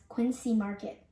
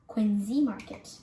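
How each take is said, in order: First: Quincy with an s sound; spelling-based pronunciation. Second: Quincy with a z sound; local pronunciation. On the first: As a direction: say Quincy as QUIN-see. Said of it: "You may say it as". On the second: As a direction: say Quincy as QUIN-zee. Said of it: "it is actually pronounced". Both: Shown as a demonstration.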